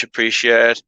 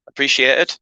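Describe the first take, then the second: First: "appreciated" with the middle t swallowed, ending run together; slurred slip. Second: "Appreciated" with every syllable sounded, clear t before the ending; corrected pronunciation. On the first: Streamer thanking a fellow streamer, "appreciated" slurred at the end. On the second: Streamer correcting his slip, "Appreciated" fully pronounced. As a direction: say "Appreciated" in full, ending in "-ay-tid". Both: Real, not acted.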